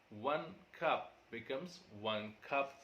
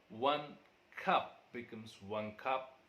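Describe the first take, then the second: The two takes are said the same way.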